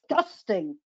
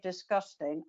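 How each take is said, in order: First: The word is said in a lively voice. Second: The word is said in a flat voice. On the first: The speaker calls it right. "I say disgusting" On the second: The speaker calls it wrong. "I don't say disgusting"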